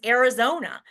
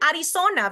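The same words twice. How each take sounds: First: Said in the usual way. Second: Arizona with tapped r and s for z; Spanish accent. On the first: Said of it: "anglicize the pronunciation of places". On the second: Shown as a demonstration. Lecturer questioning anglicized place names, Spanish accent. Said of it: "Why can't we say Arizona".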